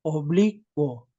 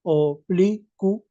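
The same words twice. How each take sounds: First: OBLICUO split slowly as o-BLI-cuo; three syllables. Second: OBLICUO split slowly into four, o-bli-cu-o; syllable by syllable. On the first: Student correcting himself to three syllables, oblicuo as o-bli-cuo. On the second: Student counting four syllables for the teacher, oblicuo broken up slowly. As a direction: say oblicuo slowly, every syllable apart, u and o separate. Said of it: "tú al pronunciar dices oblicuo". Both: Shown as a demonstration.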